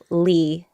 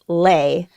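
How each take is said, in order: First: The name's vowel sounds like 'lee'. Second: The name's vowel sounds like 'lay'. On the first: This is the American way of saying the name. "I'm used to calling myself Lee" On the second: This is the traditional Vietnamese form of the name. "the traditional pronunciation of the last name L E"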